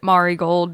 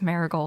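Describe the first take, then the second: First: The A is said with a Japanese vowel. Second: The A is said with an English vowel. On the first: The speaker calls it wrong. "that's the Japanese pronunciation of the A" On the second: The speaker calls it right. "but it's just marigold"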